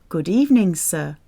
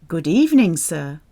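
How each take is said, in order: No difference in how they are said.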